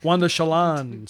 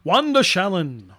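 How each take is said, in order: First: "Shalon" stressed on the second syllable; corrected syllable stress. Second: "Shalin" stressed on the first syllable; wrong-syllable stress. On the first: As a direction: say sha-LON in "Shalon", first syllable weak. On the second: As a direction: say SHAL-in in "Shalin", second syllable weak. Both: Real, not acted. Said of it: "emphasis on the wrong syllable".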